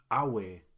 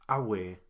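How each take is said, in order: First: The stress is on the first syllable. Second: The same.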